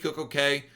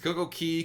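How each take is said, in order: First: The last word rhymes with day. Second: The last word rhymes with see. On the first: "so that it rhymes with perfect day" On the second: "Both pronunciations"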